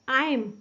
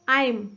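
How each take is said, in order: Both takes have the same delivery.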